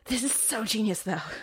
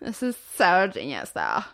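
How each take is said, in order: First: It is said with little vocal fry. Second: It is said with heavy vocal fry.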